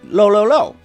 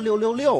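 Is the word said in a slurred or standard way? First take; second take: slurred; standard. First: The syllables are slurred and drawn out. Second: The syllables are crisp and standard. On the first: It is the trendy internet-slang way of saying it. "我是不是说错了？" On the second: It is the plain, old-fashioned way of saying it. "应该说六六六啊。"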